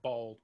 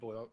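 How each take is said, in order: First: The vowel is plain, like 'aw' in 'ball'. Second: The vowel glides, like 'oy' in 'boy'.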